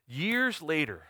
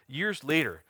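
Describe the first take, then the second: First: Slow, catching in the throat; the words stall as tears rise; choked up. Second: Said in the usual way. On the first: Real, not acted. Pastor telling his congregation about his past, choked up. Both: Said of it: "I got choked up".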